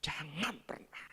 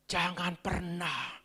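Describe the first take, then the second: First: Jangan pernah whispered slowly, much softer, with a rising end; whispered warning. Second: Jangan pernah said slowly with a falling close; a slow, grave Jangan pernah; slow warning. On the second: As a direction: Jangan pernah, measured and firm. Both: Shown as a demonstration.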